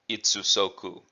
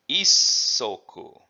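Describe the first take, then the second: First: Both syllables of 'itsu' are said separately. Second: The 's' sound is stretched and blended in. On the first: The speaker calls it wrong. "You can say that if you want to" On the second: The speaker calls it right. "we're blending the itsu, we're making a contraction"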